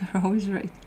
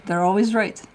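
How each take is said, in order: First: Laughing repeat. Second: Said in the usual way. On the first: Shown as a demonstration. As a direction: chuckle as you say it again. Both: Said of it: "Don't argue with the drunk".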